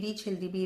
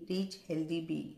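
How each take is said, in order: First: The phrase is said quickly and hurriedly. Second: The phrase is said slowly and carefully. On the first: The speaker calls it wrong. "घाईघाईने ... असा नाही chant करायचा आहे" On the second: The speaker calls it right. "असं व्यवस्थित chant करता आलं पाहिजे"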